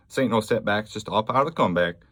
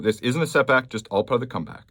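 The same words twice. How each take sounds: First: A hint of a Texan McConaughey drawl, quicker; lightly put-on Southern twang, tossed off; mild mock Southern-American accent, a bit fast. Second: Said in the usual way. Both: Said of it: "I don't know what accent that was".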